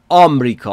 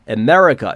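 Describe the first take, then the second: First: It is pronounced with a Persian accent. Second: It is pronounced with an English accent. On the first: "آمریکا تلفظ فارسیه یعنی ایرانیزشه" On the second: "نگفتم آمریکا"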